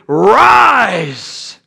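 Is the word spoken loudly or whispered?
loudly. The word is spoken loudly in full voice. "Maybe he didn't say it like that"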